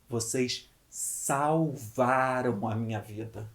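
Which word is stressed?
salvaram. The word salvaram carries the emphasis. They did not just help, they actually saved. "se eu valorizar a palavra salvaram"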